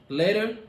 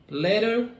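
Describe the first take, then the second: Both takes have the same delivery.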